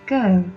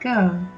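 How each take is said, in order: First: The R is tapped behind the front teeth. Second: The R is hidden, with a flat tongue. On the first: "Scottish, however, might use the tat R where the tongue is right behind the top front teeth" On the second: "British accents is slightly hiding the R sound and the tongue is flat"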